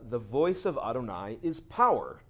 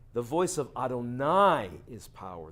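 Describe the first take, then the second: First: Adonai is not specially emphasized. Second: Adonai is strongly emphasized.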